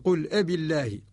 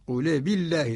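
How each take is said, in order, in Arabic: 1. تُسمع همزة قبل الكلمة الثانية. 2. الحرف الصامت يتصل مباشرة بالحركة التي بعده. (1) "لأصل" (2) "قرأ الإمام ورش قل بالله، تحركت اللام بحركة الهمزة"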